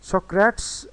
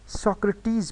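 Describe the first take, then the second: First: सोक्रेट्स said higher and louder as so-crates; सोक्रेट्स ending like English "crates", pitched up; two-syllable mispronunciation. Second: सोक्रेटिस in three beats, sok-ruh-teez; सोक्रेटिस carefully said as three syllables; three-syllable pronunciation. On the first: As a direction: show the wrong reading of सोक्रेट्स, two syllables only. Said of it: "टू syllables नहीं है इसमें". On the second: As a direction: say सोक्रेटिस with a separate final "teez". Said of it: "ये तीन syllables हैं". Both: Shown as a demonstration.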